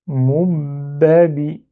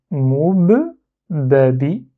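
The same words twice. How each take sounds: First: "moubabi" read very slowly as one word, without reopening the mouth; joined full reading. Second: "moub babi" drawn out slowly, held on the b; slow syllable demo. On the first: Teacher reads the whole word joined up for pupils. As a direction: glide "moubabi" together, slowly and evenly. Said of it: "Et je lis du coup". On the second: Teacher reads slowly for pupils, blocking the b. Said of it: "en bloquant là". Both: Shown as a demonstration.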